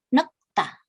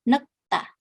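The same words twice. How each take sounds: Both takes have the same delivery.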